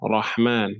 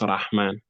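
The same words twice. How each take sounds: First: The first vowel sounds like a heavy 'o'. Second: The first vowel sounds like a light 'a'. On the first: The speaker calls it right. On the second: The speaker calls it wrong. "not Rahman"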